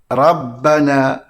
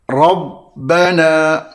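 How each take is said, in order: First: The r is pronounced light and thin. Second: The r is pronounced heavy and thick. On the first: The speaker calls it wrong. "Antara kesilapan yang dilakukan adalah dengan membaca ra tersebut dengan bacaan nipis" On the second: The speaker calls it right. "Cara bacaannya hendaklah dibaca dengan tebal"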